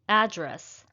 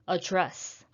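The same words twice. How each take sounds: First: The stress is on the first syllable. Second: The stress is on the second syllable. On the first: It is used as a noun. "The next noun is address" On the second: It is used as a verb. "Versus address"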